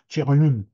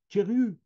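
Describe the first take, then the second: First: The word ends with a strongly nasalized vowel. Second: The word is said without strong nasalization. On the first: This is another writer's marked pronunciation. "Et lui, c'est Thierryon" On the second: This is the speaker's own pronunciation. "J'ai Thierry"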